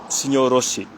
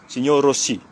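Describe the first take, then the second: Both takes have the same delivery.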